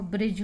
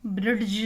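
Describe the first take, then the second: First: ब्रिज with no D before the final J; correct pronunciation. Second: ब्रिड्ज with a hard D before the J; wrong pronunciation. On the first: Teacher gives students the right reading, D silent. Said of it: "वो ब्रिज होगा". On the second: Teacher shows what not to say, D pronounced. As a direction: force an audible D into ब्रिड्ज. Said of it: "नहीं पढ़ेंगे इसको". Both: Shown as a demonstration.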